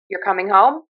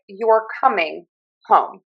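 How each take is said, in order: First: "You're coming home?" with pitch rising on "home"; upspeak. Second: "You're coming home" settling down on "home"; falling statement. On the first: Showing Pittsburgh intonation to learners, "You're coming home?" with upspeak. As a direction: lift the end of "home" as if asking, though it is a statement. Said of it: "make it sound like a question". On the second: Showing learners a statement, "You're coming home" with falling end. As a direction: let "home" drop as a plain statement, set slightly apart. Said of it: "trying to make a statement". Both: Shown as a demonstration.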